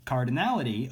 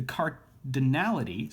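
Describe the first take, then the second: First: Said in the usual way. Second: "cardinality" stumbled, broken after the first syllable; misspoken word. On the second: Real, not acted. Lecturer fumbling a maths term, misspoken "cardinality". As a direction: trip over "cardinality", splitting it oddly. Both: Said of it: "spoke that weird".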